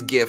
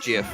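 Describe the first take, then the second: First: It begins with a hard g sound. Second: It begins with a soft j sound. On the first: The speaker calls it right. "it is GIF" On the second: The speaker calls it wrong. "it's not GIF"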